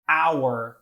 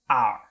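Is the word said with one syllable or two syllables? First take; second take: two; one. First: The word is said with two syllables. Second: The word is said with one syllable. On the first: The speaker calls it right. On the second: The speaker calls it wrong.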